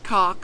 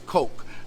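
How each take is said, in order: First: It rhymes with the word cock. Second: It rhymes with the drink coke. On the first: The speaker calls it wrong. "not cock" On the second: The speaker calls it right. "remember it's Coke"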